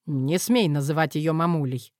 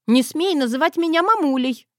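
First: Snapped. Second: Higher, louder indignant snap; snapped. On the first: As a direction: lower gruff male bark. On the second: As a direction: bark it at the girl. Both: Acted. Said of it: "в один голос с Крыловым рявкнули".

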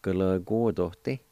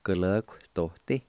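First: Gulagordoti with every syllable clear; first pronunciation. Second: Gulagordoti clipped in the middle, like kuhlahktoti; alternate pronunciation. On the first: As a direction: say Gulagordoti fully, each syllable. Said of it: "the word Lord". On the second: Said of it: "some people might pronounce it like this". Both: Shown as a demonstration.

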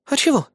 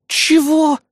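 First: Said in the usual way. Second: "Чего?" flung out high, loud and outraged; a sharp, high-pitched "Чего" of indignation; indignant outburst. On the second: A narrator's reading. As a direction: bristle with offended disbelief. Kri explodes at the insult.

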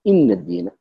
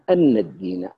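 First: إن with an i vowel and held n, inn-ad-dīn; in with kasra. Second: أن with an open a vowel, an-dīn; an with fatha. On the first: Teacher giving the other readers' version, إن with kasra. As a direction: read إن الدين with kasra on the hamza. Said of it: "ما قراءة الباقين". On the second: Teacher demonstrating Kisai's reading, أن with fatha. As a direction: read أن الدين with fatha on the hamza. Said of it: "نص على قراءته". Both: Shown as a demonstration.

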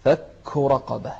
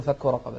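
First: "رقبة" مع همس الهاء في آخرها; اهمس الهاء في "رقبة". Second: "رقبة" بهاء مجهورة بلا همس; اقرأ "فك رقبة" دون همس في الهاء; نطق خاطئ. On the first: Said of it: "مع الهمس في الهاء". (المعلم يوضح الهمس) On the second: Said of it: "لا تقول". (مثال الخطأ) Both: Shown as a demonstration.

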